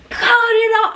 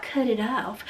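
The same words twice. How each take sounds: First: A higher, louder cut it off; high yelled command. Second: Low, much softer cut it off, almost under the breath; soft murmur. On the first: Retold or imitated. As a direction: call it out hard and high. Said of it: "I'm out there going". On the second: Shown as a demonstration. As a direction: toss it off softly, no urgency. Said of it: "it wasn't like".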